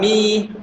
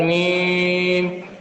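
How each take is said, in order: First: The syllable has only a light nasal hum. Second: The syllable has a heavy, drawn-out nasal hum. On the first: The speaker calls it right. "Mi tidak boleh dengungnya berlebihan" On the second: The speaker calls it wrong. "bukan mim"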